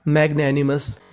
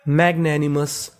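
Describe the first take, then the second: First: Said in the usual way. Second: Slow syllable-by-syllable मैग्नैनिमस; slow model reading; slow demo word. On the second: Shown as a demonstration. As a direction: draw out मैग्नैनिमस as mag-na-ni-mus. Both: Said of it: "तो पूरी meaning".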